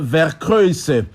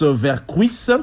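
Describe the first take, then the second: First: The name is pronounced the Dutch way. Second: The name is pronounced the French way. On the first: "la vraie prononciation euh, belge et hollandaise" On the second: "En France, on prononce Vercuys"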